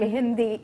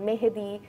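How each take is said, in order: First: It is said in the neighbouring-country form. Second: It is said in the local Bengali form. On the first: "পার্শ্ববর্তী দেশের মতো করেই বলে" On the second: "অবশ্যই এভাবে বললে অনেকে বুঝবেন"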